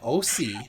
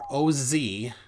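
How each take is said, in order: First: The middle consonant is an S sound. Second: The middle consonant is a Z sound. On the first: The speaker calls it wrong. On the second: The speaker calls it right.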